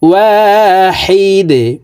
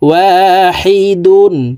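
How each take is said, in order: First: The word stops on a bounced d sound. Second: The word ends with a full -dun sound. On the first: "দালকে ওয়াকফের ক্ষেত্রে সাকিন করে ফেলবো। তো এখানে এইভাবে থামবো" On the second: "দাল দুই পেশ দুন"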